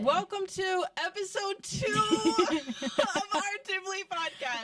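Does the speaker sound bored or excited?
excited. It is said with lively excitement.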